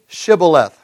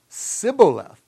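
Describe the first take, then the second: First: The word begins with a 'sh' sound. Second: The word begins with an 's' sound. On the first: The speaker calls it right. "say Shibboleth" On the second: The speaker calls it wrong. "They didn't pronounce it properly"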